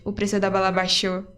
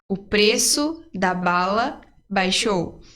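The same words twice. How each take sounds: First: The phrase is said quickly. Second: The phrase is said at a normal pace.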